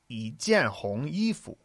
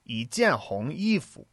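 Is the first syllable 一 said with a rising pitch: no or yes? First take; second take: yes; yes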